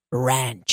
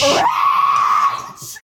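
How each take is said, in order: First: Drawn-out low "ranch"; code word ranch. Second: Shouted code word. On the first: Shown as a demonstration. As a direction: stretch out "ranch" low and slow. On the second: Acted. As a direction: shout "Ranch!" back like a battle cry. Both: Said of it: "with our code".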